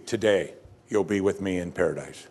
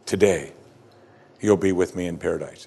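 First: Lower, softer, tender promise; reassuring and soft. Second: Reassuring. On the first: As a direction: let it land gently. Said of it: "Jesus' statement is clear as could be". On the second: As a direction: savour each word like a promise. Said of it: "How reassuring is that". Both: Shown as a demonstration.

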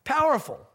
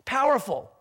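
The two takes are said the same way.

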